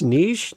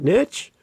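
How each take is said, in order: First: It is said with a Canadian pronunciation. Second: It is said with an American pronunciation. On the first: The speaker calls it right. "I'm in Canada. We say niche" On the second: The speaker calls it wrong. "to my American friends"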